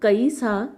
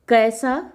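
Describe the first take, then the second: First: The first vowel glides from 'a' to 'i'. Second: The first vowel is a single steady vowel. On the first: This is the Awadhi form. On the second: This is the standard Hindi form.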